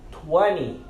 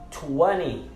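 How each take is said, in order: The two takes are said the same way.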